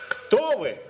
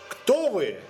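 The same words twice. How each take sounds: No difference in how they are said.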